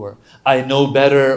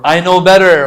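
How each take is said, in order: First: Said in the usual way. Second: Arrogant. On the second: Retold or imitated. Arrogant sinner voiced in sermon.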